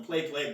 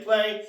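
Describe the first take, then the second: First: Said in the usual way. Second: Final "play." punched higher and louder; emphatic play. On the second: Shown as a demonstration. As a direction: land the last "play." with a lift and extra force. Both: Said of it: "we play with them".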